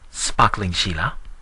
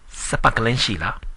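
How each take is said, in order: First: Sparkling is said with standard English consonant clusters. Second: Sparkling is said with vowels breaking up clusters. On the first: The local listener does not understand it. The speaker calls it wrong. "your pronunciation is a little too correct" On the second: The local listener understands it. The speaker calls it right. "Here they call it Sapakalin"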